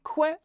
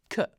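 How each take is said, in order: First: "que" said wrongly as "kwe", with a w; "que" as a learner's error, kw sound; wrong pronunciation. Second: "que" said as "ke", no w; short "que", hard k and neutral vowel; correct pronunciation. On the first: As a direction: demonstrate the mistaken "que" with an English qu. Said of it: "is not que". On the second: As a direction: model French "que" with a plain k. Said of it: "it's que". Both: Shown as a demonstration.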